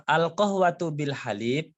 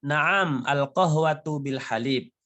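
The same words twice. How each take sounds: First: "Al qahwatu bil halib?" pitched higher, rising at the end as a question; questioning tune. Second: "Naam, al qahwatu bil halib." as a plain answer, falling at the end; answering statement tune. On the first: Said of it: "Kalau tanyanya dengan nada bertanya". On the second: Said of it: "answer after question demo". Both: Shown as a demonstration.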